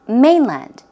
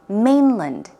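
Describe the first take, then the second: First: The stress is on the second syllable. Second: The stress is on the first syllable. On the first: "the first one, land" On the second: "You will also hear"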